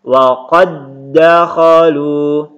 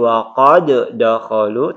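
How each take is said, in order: First: The two d sounds merge into one doubled d. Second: The two d sounds are pronounced separately. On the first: The speaker calls it right. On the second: The speaker calls it wrong. "Tidak dibaca lagi"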